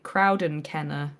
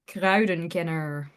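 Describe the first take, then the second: First: It is said in a British accent. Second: It is said in a non-British accent.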